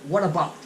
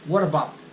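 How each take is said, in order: Both takes have the same delivery.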